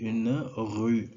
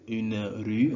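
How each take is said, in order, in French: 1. Le R est fortement roulé dans la gorge. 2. Le R est un R français simple. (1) "on va dire une rue" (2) "au lieu de dire une rue"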